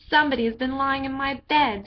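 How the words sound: It is said in a great big voice.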